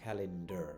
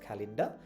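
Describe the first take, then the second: First: The word ends with an r sound. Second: The word ends without an r sound. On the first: "আমেরিকানরা বলবে ক্যালেন্ডার" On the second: "British আর উচ্চারণ করে না"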